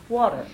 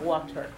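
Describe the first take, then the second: First: The T is pronounced softly. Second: The T is pronounced hard and crisp. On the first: The speaker calls it right. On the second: The speaker calls it wrong. "not water"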